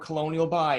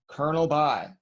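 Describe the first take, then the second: First: The first word is said as spelled, 'co-lo-nel'. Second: The first word sounds like 'kernel'. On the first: The speaker calls it wrong. "don't ever call it Colonial By again" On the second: The speaker calls it right. "it's called Colonel By"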